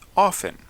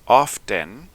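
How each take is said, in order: First: The t sound is left out. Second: The t sound is clearly pronounced. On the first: "y otros sin la T" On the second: "Algunos lo pronuncian con la T"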